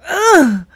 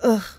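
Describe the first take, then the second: First: The groan is big and exaggerated. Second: The groan is small and understated.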